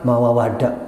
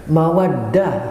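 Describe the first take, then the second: First: The word is said with an extra syllable, mawawadah. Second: The word is said with three syllables, mawaddah. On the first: The speaker calls it wrong. "ada yang salah ngomong itu beberapa kali" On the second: The speaker calls it right. "bukan mawawadah"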